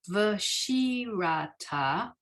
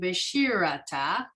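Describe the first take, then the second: First: Each syllable is said clearly and fully. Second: The syllables run together in a slurred way. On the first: This is how it is read from the text. "But to read it" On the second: This is how people actually say it. "when it's pronounced, it ends up being"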